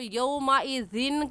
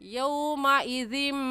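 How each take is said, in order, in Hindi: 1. शब्द का अंत सादा न की आवाज़ से होता है। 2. शब्द का अंत म की आवाज़ से होता है। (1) "यौमाइज़िन कहना गलत है" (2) "दाल को मीम के साथ मिलाएंगे, ऐसे कहेंगे"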